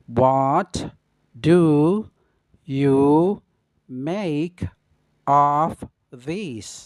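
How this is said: Each word is said separately with pauses. "yang kedua dengan pengucapan kata per kata"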